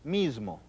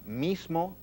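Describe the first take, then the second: First: The middle s is a buzzing z. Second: The middle s is a voiceless hiss. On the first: "muchos hispanohablantes dicen z" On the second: "en vez de decir s"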